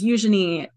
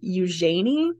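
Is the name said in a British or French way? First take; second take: British; French. First: The name is said with a British pronunciation. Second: The name is said with a French pronunciation. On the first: "a very British way of pronouncing it" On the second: "In the French, you might say"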